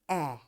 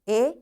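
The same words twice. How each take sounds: First: The letter is said with its short vowel sound. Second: The letter is said with its long vowel sound. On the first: "this is short vowel sound" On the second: "it is long vowel sound"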